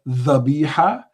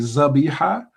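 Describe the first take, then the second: First: The word begins with a soft 'th' sound. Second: The word begins with a buzzing 'z' sound.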